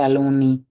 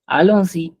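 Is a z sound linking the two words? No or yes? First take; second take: no; yes. First: No z sound links the two words. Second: A z sound links the two words. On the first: The speaker calls it wrong. "We don't say" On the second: The speaker calls it right. "put the liaison"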